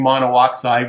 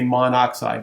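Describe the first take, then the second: First: Two separate o vowels are said, mono-oxide. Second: The vowels merge into one, monoxide. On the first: The speaker calls it wrong. "instead of saying monoxide" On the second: The speaker calls it right. "we just say monoxide. It just flows better"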